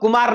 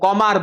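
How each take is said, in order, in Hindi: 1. पहला स्वर एक सादा 'oo' ध्वनि है। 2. पहला स्वर एक 'au' ध्वनि है। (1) "बंगाली लोग कुमार नहीं बोलते" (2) "वो कौमार बोलते हैं"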